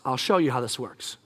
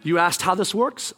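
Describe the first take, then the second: First: Low, soft fall on "works"; "works" settled low as a promise; God answering. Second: Questioning rise on "works"; "works" turned upward as a question; God asking. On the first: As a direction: answer quietly, dropping low through "works". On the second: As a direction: ask it back, lifting "works" at the end. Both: Acted. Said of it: "God speaks and says".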